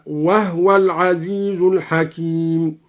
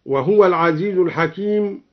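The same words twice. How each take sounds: First: وهو said as "wahwa" with the هاء silent, slowly; slow recitation, وهو as wahwa; هاء ساكنة في وهو. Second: Said in the usual way. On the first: Shown as a demonstration. (وهو بإسكان الهاء بتأنٍّ) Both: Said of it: "سكن الهاء هكذا".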